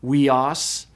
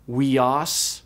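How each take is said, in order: First: Weos said slowly, "wee-oss"; slow careful Greek word. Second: Weos said again alone, rising, "wee-oss"; repeated Greek word. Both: Shown as a demonstration. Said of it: "is pronounced weos".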